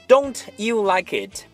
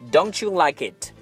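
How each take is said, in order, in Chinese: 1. 't'和'you'是分开读的。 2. 't'和'you'是连在一起读的。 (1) "所以千万不要说成" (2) "所以我们得说"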